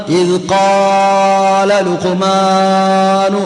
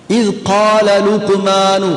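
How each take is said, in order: First: "ഇദ് ഖാല ലുഖ്മാനു" chanted with vowels stretched far too long; overlong vowels. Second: "ഇദ് ഖാല ലുഖ്മാനു" slow, long vowels held briefly; ordinary long vowel. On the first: Teacher shows what not to do with "ഇദ് ഖാല ലുഖ്മാനു", overlong chanted vowels. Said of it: "പോവില്ല". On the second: Teacher shows ordinary lengthening in "ഇദ് ഖാല ലുഖ്മാനു", slow and measured. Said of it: "സാധാരണ ദീർഘം". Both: Shown as a demonstration.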